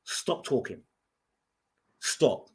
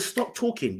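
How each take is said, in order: First: Said in the usual way. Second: Pitched higher, urgent; sharp raised warning to stop; firmer retold warning. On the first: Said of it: "And I said to her". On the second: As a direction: raise it higher, cutting her off. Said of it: "I said".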